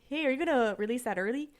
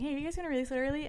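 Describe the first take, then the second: First: It is said in a Canadian accent. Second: It is said in his normal accent.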